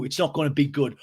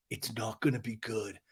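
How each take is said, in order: First: Full-voiced mocking echo; James echoing the threat. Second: Low, soft warning; Schwartz's quiet threat. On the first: Recapper imitating James repeating Schwartz's threat, challenging. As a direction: throw the threat back at full volume. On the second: Retold or imitated. Recapper imitating Schwartz warning James, low and quiet. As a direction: drop down and murmur the warning.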